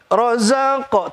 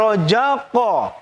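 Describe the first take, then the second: First: The middle consonant is a z sound. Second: The middle consonant is a j sound. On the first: The speaker calls it right. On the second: The speaker calls it wrong. "tidak rojaqo"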